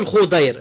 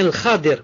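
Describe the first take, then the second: First: The name is said with two syllables, Khu-dair. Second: The name is said with two syllables, Kha-dir. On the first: The speaker calls it wrong. "on ne dit pas le Khudair" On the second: The speaker calls it right. "ou bien le Khadir, comme ça"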